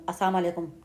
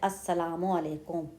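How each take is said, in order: First: The greeting is rushed and the sounds run together. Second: The greeting is slow with every syllable clearly said. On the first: The speaker calls it wrong. "जल्दी से सलाम करते हैं" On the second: The speaker calls it right. "आराम से सलाम करें और अलीफ से स्टार्ट करें"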